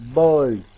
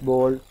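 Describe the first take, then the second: First: The vowel glides from schwa toward oo. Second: The vowel stays as one steady o sound. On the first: The speaker calls it right. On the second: The speaker calls it wrong.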